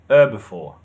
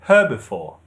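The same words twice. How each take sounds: First: The stress is on the first syllable. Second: The stress is on the second syllable. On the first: This is the American English pronunciation. "The stress is on the first syllable" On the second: This is the British English pronunciation. "The stress is on the second syllable"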